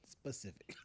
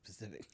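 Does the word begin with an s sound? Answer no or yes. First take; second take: yes; no. First: The word starts with an s sound. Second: The word starts without the initial s sound. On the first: The speaker calls it right. "Pacific is the ocean, specific" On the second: The speaker calls it wrong.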